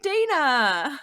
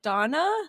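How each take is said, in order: First: The name is said the American way. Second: The name is said the British way. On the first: This is how American viewers say the name. "if you raid like an American streamer, they're like Dana" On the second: This is how British viewers say the name. "you raid someone from the U K, they're like Donna"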